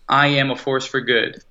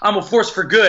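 First: It is said flatly, without conviction. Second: It is said forcefully, with strong conviction. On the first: The speaker does not really believe it. The speaker calls it wrong. "that's not very convincing" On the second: The speaker truly believes it. The speaker calls it right. "If you say it with conviction"

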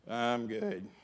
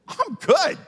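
First: It is said flatly, without conviction. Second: It is said with over-the-top excitement.

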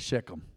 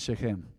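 First: It is said in an exaggerated American accent. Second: It is said without an exaggerated American accent.

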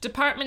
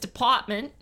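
First: It is said in a standard accent. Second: It is said in a Brooklyn-like accent.

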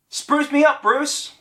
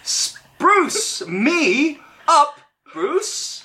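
First: It is said flatly, without much energy. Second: It is said forcefully, with real conviction.

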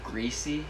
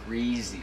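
First: The middle consonant is a hissing S sound. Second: The middle consonant is a buzzing Z sound. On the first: "Instead of greasy?" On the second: "like there's a Z in it"

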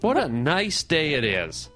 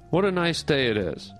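First: The sentence is said in a lively, expressive way. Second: The sentence is said in a flat, plain way.

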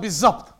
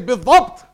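First: The consonant after 'bi' is a z sound. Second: The consonant after 'bi' is a d-like sound. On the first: "they say, mashallah, bizzabt" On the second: "When you say bidhabt"

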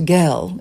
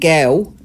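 First: The word is said in a West End accent. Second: The word is said in an East End accent. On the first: "Gel in the West End" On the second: "Gel down the East End"

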